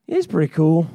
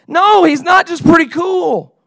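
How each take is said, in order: First: Low-pitched, unimpressed answer; lukewarm reply. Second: High, loud objection; exasperated protest. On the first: Listener replying to an excited leader, lukewarm and low. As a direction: drop the pitch and concede with little interest. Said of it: "And you go". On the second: Leader rejecting a listener's lukewarm reply, exasperated shout. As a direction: shout it in disbelief at the faint praise. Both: Acted.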